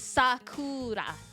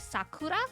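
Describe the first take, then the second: First: The emphasis is on the first syllable. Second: The emphasis is on the middle syllable. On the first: The speaker calls it right. "In Japanese, it's usually at the front of the word" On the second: The speaker calls it wrong. "In English, the emphasis tends to be on the middle"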